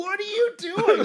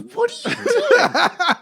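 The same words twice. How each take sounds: First: Much higher, slow, baffled coworker voice; a coworker baffled at him gulping smoke, high and slow; incredulous coworker. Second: Much higher and very slow, laughing through it; laughing coworker. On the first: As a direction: drag it out in disbelief. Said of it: "one of my coworkers is like". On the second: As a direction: ask it cracking up in disbelief. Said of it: "He goes". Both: Retold or imitated.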